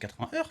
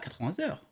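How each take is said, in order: First: No linking sound between vingts and heures. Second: A z sound links vingts to heures. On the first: The speaker calls it right. "on dit quatre-vingts heures, frère ... on fait pas de liaison" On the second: The speaker calls it wrong. "on dit pas quatre-vingts heures"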